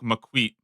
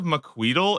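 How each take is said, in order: First: The word ends without any L sound. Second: The word ends with an audible L sound. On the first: The speaker calls it right. "You don't really, like, pronounce the L" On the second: The speaker calls it wrong. "I've been saying this shit completely wrong"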